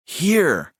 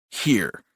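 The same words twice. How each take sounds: First: High, falling, insistent word; insistent little brother. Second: Said in the usual way. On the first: A narrator's reading. Brother insisting to his brother, high and impatient. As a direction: press the word in a raised voice. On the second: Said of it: "Dylan repeated".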